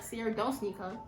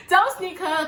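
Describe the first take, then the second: First: Much softer, talking herself down; a hushed private warning to self; quiet inner voice. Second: Higher, louder, laughing through it; laughing repeat. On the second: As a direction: laugh the words out. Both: Retold or imitated. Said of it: "But I'm like".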